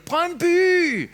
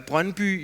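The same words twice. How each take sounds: First: High, loud football chant of BRØNDBY; yell. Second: Said in the usual way. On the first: Shown as a demonstration. Coach imitating a football fan, high loud yell of BRØNDBY. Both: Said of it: "it's difficult to yell".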